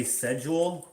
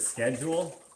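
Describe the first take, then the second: First: "schedule" starting with a plain s sound, "sed-jool"; soft-sch pronunciation. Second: "schedule" starting with a hard sk, "sked-jool"; hard-k pronunciation. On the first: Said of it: "some people say schedule, which I hate". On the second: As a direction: say "schedule" with a clear k. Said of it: "instead of schedule". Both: Shown as a demonstration.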